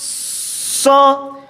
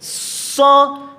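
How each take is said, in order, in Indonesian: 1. Bunyi s memiliki desis siulan. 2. Bunyi s memiliki desis siulan.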